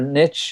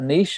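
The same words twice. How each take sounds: First: It is pronounced the American way. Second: It is pronounced the non-American way. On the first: "as they call it in the States" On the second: "a niche or niche"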